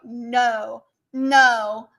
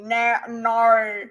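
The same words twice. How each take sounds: First: "no" in an attempted American accent. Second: "no" in an exaggerated Australian accent; Aussie accent. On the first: Streamer showing chat how Americans say no, American accent. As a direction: try saying "no" like an American. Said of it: "how do Americans say no?". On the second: Streamer following chat's advice to say it like an Aussie, Australian accent. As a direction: bend "no" into an Aussie vowel. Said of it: "Say it like an, an Aussie". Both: Shown as a demonstration.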